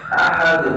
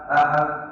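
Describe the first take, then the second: First: The final d has a strong bouncing release. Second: The final d is clipped with no echo. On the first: The speaker calls it right. "Qalqalah yang besar" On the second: The speaker calls it wrong. "kalau tidak muncul al-qalam ... ini tidak sempurna"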